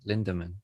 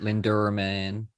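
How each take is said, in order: First: The name is said without an R sound. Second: The name is said with an added R sound. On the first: The speaker calls it right. "There's no R" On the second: The speaker calls it wrong. "You are putting an R"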